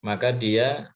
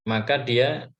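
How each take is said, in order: No difference in how they are said.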